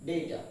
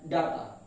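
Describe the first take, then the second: First: Data as "DAY-ta"; long AY in the first syllable of data; correct pronunciation. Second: Data as "DAH-ta"; common mispronunciation. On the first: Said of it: "the pronunciation is data". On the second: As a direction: open A in the first syllable of data. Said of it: "We commonly pronounced the word as". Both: Shown as a demonstration.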